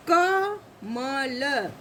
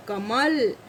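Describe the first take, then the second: First: कमल very slowly as ka, ma, la; syllable by syllable. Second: Said in the usual way. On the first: Shown as a demonstration. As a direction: split कमल into three drawn-out sounds. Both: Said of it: "जैसे कि".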